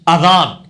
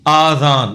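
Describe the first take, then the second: First: The first vowel is kept short. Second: The first vowel is drawn out long. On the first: The speaker calls it right. "अलिफ छोटा पढ़ना है" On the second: The speaker calls it wrong. "ये लफ्ज गलत है"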